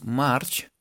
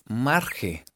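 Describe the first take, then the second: First: March in one syllable ending in CH; March with a closing ch sound; English pronunciation. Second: Marge read the Spanish way, MAR-he; read as spelled. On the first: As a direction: say March the English way, no final vowel. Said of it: "pero se pronuncian muy parecido". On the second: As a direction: say Marge as written, with a Spanish J and final E. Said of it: "se escribe Marge". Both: Shown as a demonstration.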